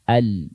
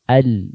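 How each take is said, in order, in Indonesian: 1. Bunyi L mengalir sedikit. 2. Bunyi L mengalir sedikit.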